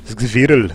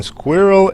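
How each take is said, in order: First: "Squirrel" said in a German accent as "svirrel", with a v and a rolled r. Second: Said in the usual way. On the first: Shown as a demonstration. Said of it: "funny to say with a German accent". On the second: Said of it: "squirrel is funny to say with a German accent".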